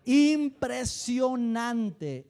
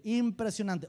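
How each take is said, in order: First: Impresionante stretched very slow and louder; drawn-out amazement. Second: Said in the usual way. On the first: Shown as a demonstration. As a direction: draw out impresionante in awe. Amazed at old church moments.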